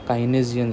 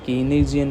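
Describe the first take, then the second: First: The first syllable sounds like 'kai'. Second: The first syllable sounds like 'kee'. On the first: The speaker calls it right. "काइनेजियन लिखा है" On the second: The speaker calls it wrong. "कीनेजियन नहीं लिखा है"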